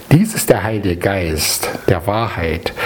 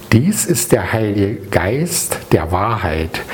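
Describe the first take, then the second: Both takes have the same delivery.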